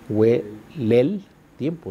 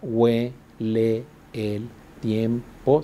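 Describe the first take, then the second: First: The vowels between words run together into one syllable. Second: Each vowel between words is kept in its own syllable. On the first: "o sea, serían tres sílabas" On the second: "si las separo cada una"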